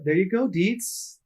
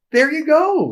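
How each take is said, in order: First: Said in the usual way. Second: Much higher, bright triumphant call; excited cheer. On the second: Real, not acted. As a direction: cheer it out with a grin. Cheering on co-host.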